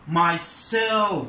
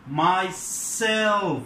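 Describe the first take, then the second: First: The stress falls on the second syllable, 'self'. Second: The stress falls on the second syllable, 'self'.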